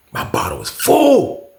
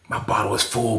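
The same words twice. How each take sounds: First: "full" stretched long and high; stress on full. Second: Said in the usual way. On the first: Retold or imitated. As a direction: draw out "full" on a high, falling pitch. Stressing how full the bottle was.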